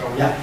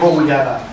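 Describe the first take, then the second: First: The name is said short, with the ending dropped. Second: The name is said in full, with every syllable. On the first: It is the easier everyday form. "es más fácil decir Coullá" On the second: It is the older original form. "en vez de Coullada"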